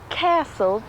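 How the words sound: It is said with an American accent. "the Americans say castle"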